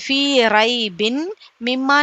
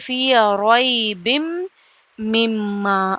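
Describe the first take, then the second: First: The n sound is kept before the m. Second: The n sound merges into the m. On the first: The speaker calls it wrong. "जैसे फी रई बिन मिम्मा नहीं" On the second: The speaker calls it right. "मिलाकर पढ़ा जाएगा ... बल्कि फी रोई बिम मिम्मा"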